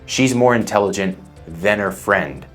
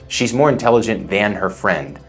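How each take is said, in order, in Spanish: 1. La palabra 'than' es reducida, como 'then'. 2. La palabra 'than' tiene su vocal completa. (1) "No suena como than" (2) "Imagínate si dijera, ... Tomaría más tiempo"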